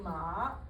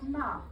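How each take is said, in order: First: The pitch dips down low on the syllable. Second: The pitch falls sharply on the syllable. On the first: It means horse. "if I go down enough" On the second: It is a scolding word. "If I say it going down"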